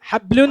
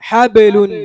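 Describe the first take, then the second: First: The b is closed flat with no bounce. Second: The b is released with an echoing bounce. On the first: The speaker calls it wrong. "ഹബ്ലുൻ എന്ന് പറയരുത്" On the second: The speaker calls it right. "ബായിന് കൽക്കലയാണ്"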